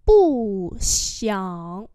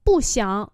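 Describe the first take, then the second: First: Two long syllables; slow model for learners; slow demonstration. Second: Said in the usual way. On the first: Shown as a demonstration. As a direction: stretch out both tones. Teacher repeats phrase slowly.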